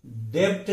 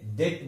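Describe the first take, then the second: First: डेप्ट with the b sounded; extra stop before t in डेप्ट; wrong pronunciation. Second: डेट with silent b; no stop before the t in डेट; correct pronunciation. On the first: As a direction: show डेप्ट as the mistake. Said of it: "नहीं बोलते". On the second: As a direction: say डेट as "det", softer. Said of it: "इसे डेट बोलते". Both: Shown as a demonstration.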